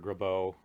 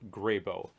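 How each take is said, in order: First: The name is said in its presumed original way. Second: The name is said in its common anglicized way. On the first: This is how the man likely said his own name. "the man himself probably uh, pronounced it Doctor Grabeau, something like that" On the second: This is how the pipe is usually called. "commonly it is called Doctor Grabeau"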